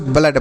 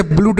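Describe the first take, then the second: First: "ब्लड" with a short uh vowel; correct reading. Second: "ब्लूड" with a long oo vowel, as in food; wrong reading. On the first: Teacher shows pupils the correct reading, "ब्लड" with short uh. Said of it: "ब्लड पढ़ते हैं". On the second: Teacher shows pupils the misreading, "ब्लूड" with long oo. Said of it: "इसे ब्लूड नहीं पढ़ते हैं". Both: Shown as a demonstration.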